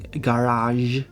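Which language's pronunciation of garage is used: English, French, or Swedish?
French. It is said with a French pronunciation. "in French you got the je sound like in garage"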